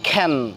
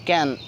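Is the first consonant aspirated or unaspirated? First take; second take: aspirated; unaspirated. First: The first k sound has a puff of breath. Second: The first k sound is plain, without breath. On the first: The speaker calls it right. "এখন থেকে সেসব জায়গায় আমরা পড়ব খ্যান" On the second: The speaker calls it wrong. "আগে আমরা পড়তাম ক্যান"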